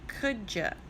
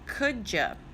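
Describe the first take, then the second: First: The words run together, ending in 'ya'. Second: The same.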